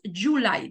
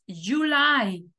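First: The stress falls on the first syllable. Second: The stress falls on the second syllable. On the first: The speaker calls it wrong. "No decimos July" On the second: The speaker calls it right. "la que va acentuada es la segunda"

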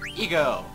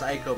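First: The name begins with an 'eh' sound. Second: The name begins with an 'eye' sound. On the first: This is the German pronunciation. "in German it was Eco, so I'm pronouncing it Eco" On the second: This is the English pronunciation. "in English it's pronounced Aiko"

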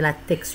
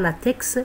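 First: The word ends with a k sound. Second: The final X is sounded as ks. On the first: The speaker calls it right. "c'est LaTeX, une prononciation grecque" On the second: The speaker calls it wrong. "on ne prononce pas le X, c'est pas LaTeX"

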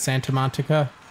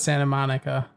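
First: Monica is said with an added T sound. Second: Monica is said with no T sound. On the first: The speaker calls it wrong. "Santa Monica with like an extra T" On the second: The speaker calls it right. "Santa Monica with no T in the Monica"

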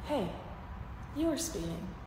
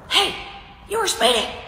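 First: It is said in a polite, friendly tone. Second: It is said in a rude, hostile tone. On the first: A camera is now watching the officer. "said tone changed immediately as I'm pointing my fucking phone at him" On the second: No camera is watching the officer. "his tone was that of a fucking dick"

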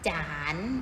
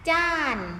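First: The syllable is said on a rising tone. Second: The syllable is said on a falling tone.

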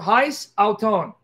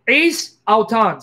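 First: The first word starts with an h sound. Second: The first word starts without an h sound. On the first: The speaker calls it wrong. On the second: The speaker calls it right.

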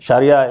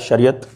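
First: The word ends in an open vowel. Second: The word ends with a t sound. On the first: This is the Arabic form of the word. "Wherever you find this A in the end, that is actually the Arabic pronunciation" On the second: This is the Urdu and Persian form of the word. "when you write it in Urdu, ... so you call it Shariat"

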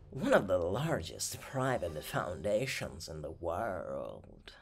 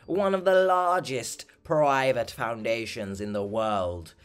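First: It is said in an exaggerated posh, wealthy accent. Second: It is said in the speaker's ordinary accent.

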